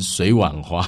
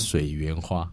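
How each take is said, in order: First: The middle syllable is pronounced wan. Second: The middle syllable is pronounced yuan. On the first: The speaker calls it wrong. "很多人念成水碗花" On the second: The speaker calls it right. "但是它叫水源花"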